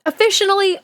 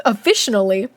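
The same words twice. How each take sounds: First: "Officially" said with an added syllable; extra syllable. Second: Said in the usual way. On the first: Real, not acted. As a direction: slip an extra "uh" into "Officially": "o-fish-un-ally". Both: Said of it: "I added a, another syllable for fun".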